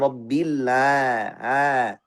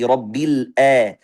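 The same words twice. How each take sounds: First: The ain is widened into a long open vowel. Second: The ain starts with a glottal stop from below. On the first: "Ketika kita luaskan makhrajnya jadi rabbil a, suaranya seperti mad" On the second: "langsung dari hamzah ... Ini juga salah"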